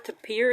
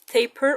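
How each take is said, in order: First: It is said to rhyme with appear. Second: It is said to rhyme with paper. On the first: "or appear" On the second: "so it rhymes with paper"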